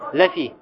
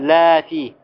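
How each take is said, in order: First: The first vowel is kept short. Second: The first vowel is drawn out long. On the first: It means certainly, or indeed. The speaker calls it right. "А говорится как ляфи" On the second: It means no, or not. The speaker calls it wrong. "Не говорится ляфи"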